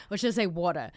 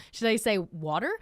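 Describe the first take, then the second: First: "water" said the Australian way, ending in an open "ah"; Australian accent on "water", no r. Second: "water" said the American way, with a tapped t and r ending; American accent on "water". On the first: Confused expat weighing her own word, Australian accent on "water". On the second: Bilingual-style confusion over which word, American accent on "water". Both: Shown as a demonstration. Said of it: "my brain doesn't know".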